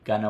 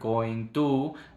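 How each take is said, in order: First: The sounds are joined smoothly into one word. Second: Each syllable is said separately and choppily. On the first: The speaker calls it right. "el ritmo del inglés es más conectado, más fluido" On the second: The speaker calls it wrong. "no digo longer, going to, ta, ta, ta, porque ese es el ritmo del español"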